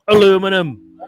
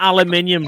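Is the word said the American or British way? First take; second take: American; British. First: It is said the American way. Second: It is said the British way. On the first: The speaker calls it wrong. "Not aluminum" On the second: The speaker calls it right. "It's fucking aluminium, right?"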